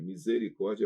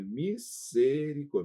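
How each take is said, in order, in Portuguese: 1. A consoante do meio é um som de z vibrado. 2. A consoante do meio é um som de s sibilante. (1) "Misericórdia é português" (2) "Em espanhol é misericórdia"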